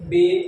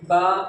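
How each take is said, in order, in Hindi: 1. अक्षर के नाम का अंत 'ay' स्वर से होता है। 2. अक्षर के नाम का अंत 'ah' स्वर से होता है। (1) "और कुछ कैसे बोलते हैं" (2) "कुछ लोग अलग तरीके से बोलते हैं। कैसे बोलते हैं"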